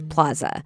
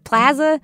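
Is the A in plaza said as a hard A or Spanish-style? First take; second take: Spanish; hard. First: The first vowel is an open, Spanish-style A. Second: The first vowel is a hard, flat A. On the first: This follows the word's original language. "the Spanish pronunciation is plaza" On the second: This is the local way of saying it. "I pronounce it plaza with that super hard A"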